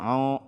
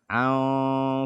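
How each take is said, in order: First: The vowel sounds heavy and dark, like o. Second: The vowel sounds light and open, like a. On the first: The speaker calls it wrong. "Jangan dibaca" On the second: The speaker calls it right. "Tidak dibaca tebal karena ain dia huruf tipis"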